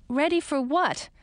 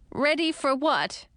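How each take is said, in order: First: Said in the usual way. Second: Slow, shaky frightened echo. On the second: A narrator's reading. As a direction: echo it with a trembling voice. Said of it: "in a shaky voice".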